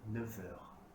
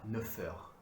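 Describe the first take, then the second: First: The words are linked with a V sound. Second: The words are linked with an F sound. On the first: The speaker calls it right. "avec la prononciation du V" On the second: The speaker calls it wrong. "On ne dit pas neuf heures"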